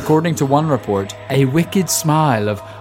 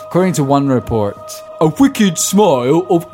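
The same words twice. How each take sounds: First: It is read in the speaker's ordinary accent. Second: It is read in an old London accent.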